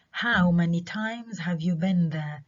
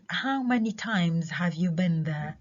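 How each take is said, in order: First: Times stressed in a slow question. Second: Times stressed, slow question. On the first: Teacher repeating the question with times stressed. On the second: Teacher reading the question with times stressed. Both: Shown as a demonstration. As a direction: ask it slowly, leaning on times. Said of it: "كلمة times في المرة الأولى عليها stress".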